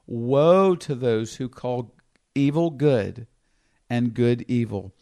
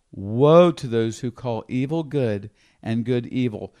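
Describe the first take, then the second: First: "Woe" drawn out slow and heavy, each word weighed; slow solemn reading. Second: Said in the usual way. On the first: Acted. Preacher reading scripture to the congregation, slow and solemn. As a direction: lay out "Woe" slowly and gravely, like a pronouncement.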